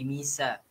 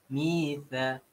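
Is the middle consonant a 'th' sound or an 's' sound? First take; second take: s; th. First: The middle consonant is an 's' sound. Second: The middle consonant is a 'th' sound. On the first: The speaker calls it wrong. "tak jadi misa" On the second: The speaker calls it right. "Hujung lidah"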